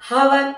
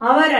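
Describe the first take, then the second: First: The word begins with an audible h sound. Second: The word begins with a vowel, no h sound. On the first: The speaker calls it wrong. "హవర్ అనకండి" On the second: The speaker calls it right. "అవర్ అనండి"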